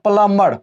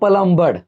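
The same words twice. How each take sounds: First: No b sound is heard after the m. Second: A b sound is heard after the m. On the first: The speaker calls it right. "यहाँ पे बी नहीं होगा, इसको बोलेंगे प्लम्बर" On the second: The speaker calls it wrong. "इसको गांव में लोग बोलते हैं प्लम्बर"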